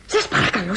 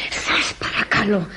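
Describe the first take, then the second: First: Said in the usual way. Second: Slow, whispered, near tears; tearful plea. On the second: Acted. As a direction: plead in a choked whisper. Maid begging drunk guest to get up.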